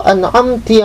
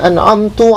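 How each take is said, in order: First: The word ends with an i vowel. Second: The word ends with a u vowel. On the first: "au kasriha" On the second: "kok kita baca domah?"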